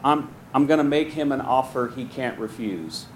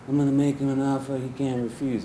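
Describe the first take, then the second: First: It is said in his own plain voice. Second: It is said as a Godfather impression.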